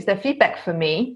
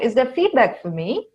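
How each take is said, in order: First: The voice goes down at the end. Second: The voice goes up at the end.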